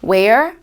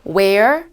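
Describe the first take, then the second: No difference in how they are said.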